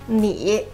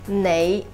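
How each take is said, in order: First: The word is pronounced the Mandarin way. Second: The word is pronounced the Cantonese way. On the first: "To say you in Mandarin would be" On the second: "in Cantonese, the same word is pronounced as"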